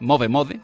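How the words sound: The name is pronounced the Spanish way.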